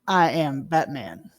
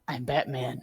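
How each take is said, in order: First: It is said in a plain voice. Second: It is said in a growling voice.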